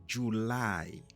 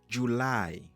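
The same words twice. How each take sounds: No difference in how they are said.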